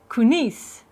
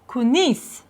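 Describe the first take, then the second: First: The word is said in a shortened, clipped form. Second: The word is said in a shortened, clipped form.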